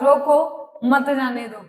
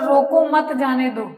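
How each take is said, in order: First: The pause comes right after the first word. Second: The pause comes after the second word.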